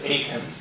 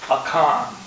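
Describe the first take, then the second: First: The name is said the common English way. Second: The name is said the Hebrew way. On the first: "some people pronounce it Achan" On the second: "in the Hebrew it is pronounced Achan"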